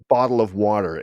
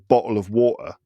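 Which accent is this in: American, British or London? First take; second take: American; London. First: It is said in an American accent. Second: It is said in a London accent. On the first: "A lot of D" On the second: "some people in in in England, like in London, might say"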